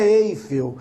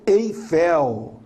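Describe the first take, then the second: First: Eiffel stressed on EI, EI-fel; weak last syllable in Eiffel, hit EI; wrong first-syllable stress. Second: Eiffel stressed on final FEL, open e. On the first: Teacher showing the mistake, Eiffel stressed on EI. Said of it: "não é Eiffel". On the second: Teacher correcting the Paris tower's name, Eiffel stressed on FEL. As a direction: land firmly on the last syllable of Eiffel. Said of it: "A sílaba mais forte". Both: Shown as a demonstration.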